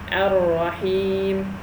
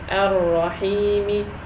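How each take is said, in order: First: The word ends on the consonant m. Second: The word ends with a short i vowel. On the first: The speaker calls it right. "We say ar-rahim" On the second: The speaker calls it wrong. "we don't say ar-rahimi. No, we don't"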